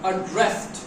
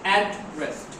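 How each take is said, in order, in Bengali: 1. জোর পড়ে দ্বিতীয় সিলেবলে। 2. জোর পড়ে প্রথম সিলেবলে। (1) "সেকেন্ড সিলেবেলের উপর জোর দিয়েছি" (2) "প্রথম সিলিবেলে যখন জোর দেবো তখন এটা ঠিকানা।"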